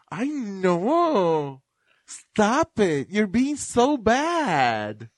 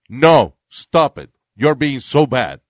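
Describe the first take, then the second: First: It is said in a playful, flirty tone. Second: It is said in a flat, serious tone.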